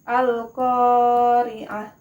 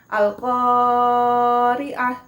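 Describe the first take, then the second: First: The first long vowel is held for two beats. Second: The first long vowel is stretched out too long. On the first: The speaker calls it right. "Ko-nya itu hanya dua harokat panjangnya" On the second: The speaker calls it wrong. "bukan Al-Qari'ah, bukan seperti itu ya"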